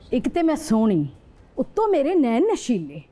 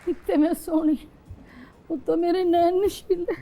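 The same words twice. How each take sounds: First: It is said in an angry mood. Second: It is said in a sad mood.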